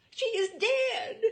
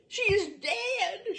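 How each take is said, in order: First: Shrill, slow, much higher and louder scream of horror; horrified scream. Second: Much higher, louder, slow scream breaking into a cry; sobbing scream. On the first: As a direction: shriek it out, slowly, as if she's found a corpse. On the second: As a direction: wail it again, slowly, voice cracking into tears. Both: A narrator's reading. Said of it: "screamed Mary".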